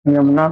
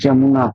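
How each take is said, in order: First: The word begins with a 'y' sound. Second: The word begins with a 'j' sound. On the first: The speaker calls it right. "यमुना को बहुत लोग जमुना कहते हैं" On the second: The speaker calls it wrong. "बहुत लोग जमुना कहते हैं"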